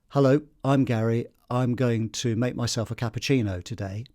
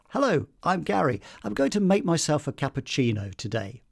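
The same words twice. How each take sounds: First: The voice is flat, with little pitch movement. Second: The voice is melodic, with varied pitch movement. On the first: The speaker calls it wrong. "instead of just saying" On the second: The speaker calls it right. "there's a sort of melody there"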